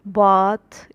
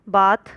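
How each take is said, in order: First: It is said in a southern English accent. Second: It is said in a northern English accent. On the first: This is how the people around her said it. "लेकिन वहाँ के लोग बोलते थे" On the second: This is how she said it. "जैसे वो बोलती थी"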